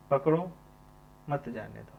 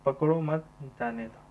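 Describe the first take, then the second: First: पकड़ो alone, a clear break, then मत जाने दो; pause after पकड़ो. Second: पकड़ो मत run together, then a break before जाने दो; group पकड़ो with मत, pause, then जाने दो; pause after मत. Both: Shown as a demonstration. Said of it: "तो पहला क्या हो जाएगा".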